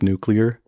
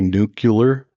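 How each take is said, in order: First: The word is said as new plus clear. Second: The word is not said as new plus clear. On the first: The speaker calls it right. "It's the word new and the word clear" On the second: The speaker calls it wrong.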